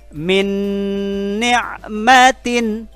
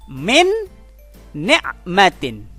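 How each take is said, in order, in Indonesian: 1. Bunyi n menyatu menjadi dengung hidung yang ditahan. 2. Bunyi n diucapkan jelas dan terpisah. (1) "ditahan sehingga menjadi dengungan" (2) "bacaan aslinya"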